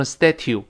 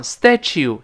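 First: "statue" with a hard t, STA-tyoo; mistaken plain t. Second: "statue" with a ch, STA-choo; correct ch sound. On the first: Teacher shows what not to say, hard t sound. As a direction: say "statue" ending in "t-you". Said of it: "就不能读成statue". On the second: Teacher shows the right reading of statue, ch sound. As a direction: say "statue" ending in "chew". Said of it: "雕像statue就不能读成statue". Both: Shown as a demonstration.

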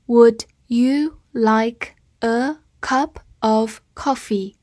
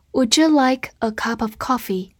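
First: Would you like a cup of coffee, drawn out word by word; slow reading. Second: Would you linked as wouldja; linked speech. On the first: Teacher reading slowly for students to repeat. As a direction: read it slowly and clearly. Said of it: "好，慢慢来读。". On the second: Teacher showing the linking in would you. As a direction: run would you together. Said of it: "中间有起处连读的部分". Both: Shown as a demonstration.

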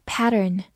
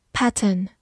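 First: "pattern" said the American way; American pronunciation. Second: Said in the usual way. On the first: Shown as a demonstration. Teacher shows learners the American pronunciation of "pattern". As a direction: give "pattern" an American accent, r-coloured ending. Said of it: "美式发音".

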